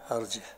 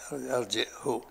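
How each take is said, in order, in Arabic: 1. لا توجد همزة قبل الهاء الأخيرة. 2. توجد همزة والهاء الأخيرة مضمومة. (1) "بلا همزة" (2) "بالهمزة وضم الهاء"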